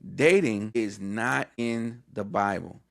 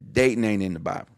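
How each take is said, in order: First: It is said slowly. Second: It is said at normal speed.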